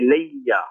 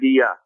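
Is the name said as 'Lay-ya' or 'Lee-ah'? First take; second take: Lay-ya; Lee-ah. First: It is said 'Lay-ya', with a doubled y. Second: It is said 'Lee-ah', with no y sound. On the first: The speaker calls it right. "We say Leia" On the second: The speaker calls it wrong. "We don't say Leah"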